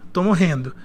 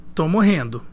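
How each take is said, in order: The two takes are said the same way.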